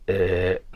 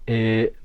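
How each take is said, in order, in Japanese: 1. えーの母音はきしむような不規則な響きです。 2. えーの母音は滑らかで安定しています。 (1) "きしみ声はえーのようになります" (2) "普通の発声がえーであるのに対して"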